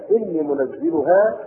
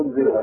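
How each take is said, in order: First: منزلها with doubled zay, munazziluha, slow; stressed reading. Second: منزلها without doubling, munziluha; light reading. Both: Shown as a demonstration. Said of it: "قراءتان".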